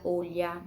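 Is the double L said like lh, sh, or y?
lh. The double L sounds like lh. This is how it is said in Spain. "na Espanha é um som de L H"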